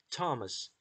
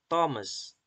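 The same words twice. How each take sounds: First: The name starts with a plain 't' sound. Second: The name starts with a 'th' sound. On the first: The speaker calls it right. "but Thomas. Why? Because T is pronounced T" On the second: The speaker calls it wrong. "not Thomas"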